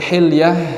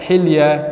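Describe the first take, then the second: First: The final 'h' sound is pronounced. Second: The final 'h' sound is left out. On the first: "Ada yang seharusnya menggunakan ha" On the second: "tidak dibaca ha"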